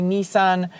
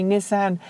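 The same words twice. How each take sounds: First: "Nissan" with a long first vowel, like "knee". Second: "Nissan" with a short first vowel, like "miss". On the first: Vlogger quoting the other disputed pronunciation for complainers, NEE-san for "Nissan". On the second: Vlogger quoting one disputed pronunciation for complainers, NISS-an for "Nissan". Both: Shown as a demonstration. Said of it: "trying to put both pronunciations in".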